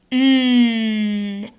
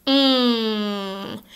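First: "Mm." held as a front N, tongue tip up; front N sound. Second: "Mm." held as a back nasal NG, softer; NG sound. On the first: Teacher contrasting the N with the NG, front N. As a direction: hum "Mm." with the tongue tip behind the teeth. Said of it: "Make the N sound". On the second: Teacher contrasting the NG with the N, back nasal NG. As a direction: hum "Mm." through the nose, tongue at the back. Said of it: "Make the N G sound". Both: Shown as a demonstration.

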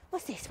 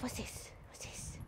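First: Much softer gentle "What's this?" to the dog; soft coaxing. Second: "What's this?" breathed in a soft whisper. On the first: Trainer to nervous Magpie, softly coaxing "What's this?". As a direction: ease the nervous dog in quietly. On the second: Trainer whispering "What's this?" to nervous Magpie. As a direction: whisper it so the dog isn't spooked. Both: Real, not acted.

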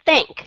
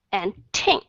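First: "Think" said loud with an aspirated burst; puffed think. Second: "think" said low and soft, without a puff; gentle th in "think". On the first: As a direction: push air out on "Think". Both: Shown as a demonstration. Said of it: "có cái sự thổi hơi ra".

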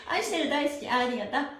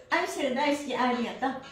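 Both takes have the same delivery.

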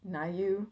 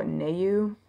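First: "Nayu" said as NIGH-you; unsure pronunciation. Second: "Nayu" said as NAY-you; alternative pronunciation. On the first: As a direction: try "Nayu" with a first syllable like "nigh". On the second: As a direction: say "Nayu" with a first syllable like "nay". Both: Shown as a demonstration. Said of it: "I think it's N A U".

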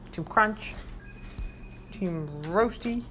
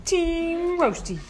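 First: Slow, low announcement of the team; low slow team name. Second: Higher and drawn out; sing-song call of the team; high slow team name. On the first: Owner handing out carrots, calling the team low and slow. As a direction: lower and drawn out. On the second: Owner handing out carrots, calling the team high and slow. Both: Real, not acted. Naming treat teams for the dogs.

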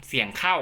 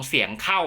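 The two takes are said the same way.

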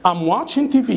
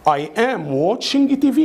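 First: Quick, linked "I'm watching T V"; contracted everyday delivery; fast speaking. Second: Slow, careful "I am watching T V"; every word separate, "I am" in full; slow speaking. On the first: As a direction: run the words together, "I'm" shrunk to "am". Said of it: "طب ننطقها بسرعة إزاي". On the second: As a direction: spell it out slowly for learners. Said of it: "دي كده slow speaking". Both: Shown as a demonstration.

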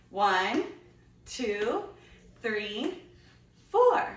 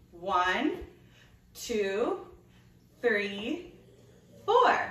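Both takes have the same delivery.

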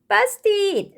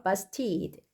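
First: Put-on high, loud toddler exclamation; high-pitched baby character; story baby. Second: Said in the usual way. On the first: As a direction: cry it out as a little child. Baby Blair voiced in story.

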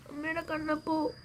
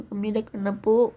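First: High, soft cooing to the little one; high cooing call. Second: Said in the usual way. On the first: Acted. Mother coos to her baby, high and soft. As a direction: coo the name up high and softly.

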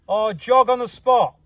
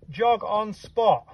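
First: Said in the usual way. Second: Jog on spot said slow and spaced, each word set apart; slow dictation. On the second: Shown as a demonstration. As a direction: spell it out slowly for the team to copy.

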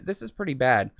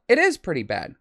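First: Said in the usual way. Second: "is" lifted in pitch to concede; stress on IS. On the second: Real, not acted. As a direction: lean on "is" as confirmation. Concedes the imagined viewers' point.

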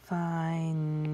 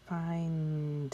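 First: "Find" with a long held N and no final D; unfinished sounding-out. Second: "Find" with held N, then a released D; final sound shown. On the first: Teacher testing if the word is done, "Find" left without its D. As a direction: stretch "Find" and stop on the humming N. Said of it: "Am I done with the word?". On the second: Teacher showing one more sound, "Find" ending on D. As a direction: stretch "Find" and close it on a clear D. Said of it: "hear that one more sound there". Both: Shown as a demonstration.

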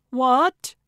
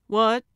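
First: Loud, high, rising exclamation of disbelief; aghast outburst; shocked cry. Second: Short, raised, confused query; mildly startled, rising question; puzzled question. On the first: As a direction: cry out stunned, pitch shooting up. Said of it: "Gertrude and Calvin cried". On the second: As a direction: ask it caught off guard. Puzzled reply to deputy's question. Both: Acted.

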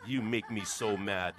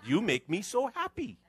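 First: Slow, grumbling line; sulky and slow; grumpy complaint. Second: Higher, bright and kind; sweet reply. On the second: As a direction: turn it into a kind compliment. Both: Shown as a demonstration. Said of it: "Try that one".

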